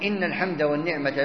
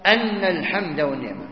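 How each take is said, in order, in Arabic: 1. تبدأ الكلمة الأولى بكسرة. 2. تبدأ الكلمة الأولى بفتحة. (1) "فالهمزة المكسورة يعني ابتداء" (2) "يعني لبيك لأن الحمد والنعمة لك"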